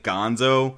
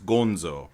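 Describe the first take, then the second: First: The name is pronounced the usual English way. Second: The name is pronounced the Japanese way. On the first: The speaker calls it wrong. "you might pronounce it Gonzo because you're so used to the Muppets" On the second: The speaker calls it right. "but no, it's Gonzo"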